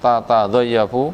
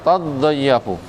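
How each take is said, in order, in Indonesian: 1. Kata ini dimulai dengan dua suku kata ta yang terpisah. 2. Kata ini dimulai dengan bunyi t ganda yang ditahan. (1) "ini bacaan asli" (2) "Bacaan diidghamkan"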